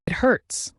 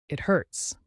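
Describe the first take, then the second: First: Pained cry. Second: Said in the usual way. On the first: Acted. Monster wounded in a fight.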